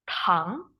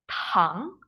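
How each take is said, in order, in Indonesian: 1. Konsonan pertama ada hembusan napas. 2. Konsonan pertama ada hembusan napas.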